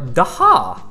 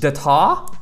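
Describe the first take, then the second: First: The middle T is dropped and silent. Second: The middle T is clearly pronounced.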